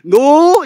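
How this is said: The pitch rises at the end. It is a question. "이렇게 끝을 올려야 됩니다"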